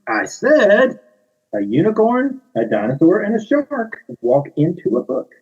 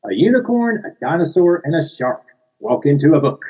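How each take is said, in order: First: Higher, pointed insistent re-read; insistent repeat. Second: Bright read-aloud, high on unicorn; reading to children. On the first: Narrator repeats opening, higher insistent emphatic reading. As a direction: repeat it firmly, losing patience. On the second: Author reads picture book aloud to children, bright storytime voice. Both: Shown as a demonstration. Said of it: "here we go".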